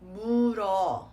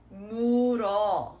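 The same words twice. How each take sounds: No difference in how they are said.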